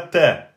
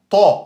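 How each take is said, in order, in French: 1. Le son t est simple et léger. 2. Le son t est emphatique et profond. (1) "et pas ta" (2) "une sorte de T grave"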